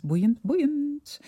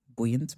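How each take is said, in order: First: High, delighted repeat of boeiend; excited. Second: Said in the usual way. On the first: Real, not acted. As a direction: gush the word, climbing up. Repeats word with growing enthusiasm.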